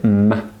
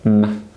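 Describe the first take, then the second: First: Only the bare consonant sound is spoken. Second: The same.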